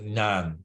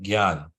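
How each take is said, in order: First: The word begins with a 'ny' sound. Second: The word begins with a 'gy' sound. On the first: This follows strict scholarly Sanskrit usage. "pronounce it as Nyan" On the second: This follows the teacher's own pronunciation. "Srila Prabhupada pronounced gyan the way I'm pronouncing it"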